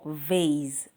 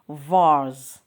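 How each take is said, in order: First: It is said with an American pronunciation. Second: It is said with a British pronunciation. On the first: "American English" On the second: "British English"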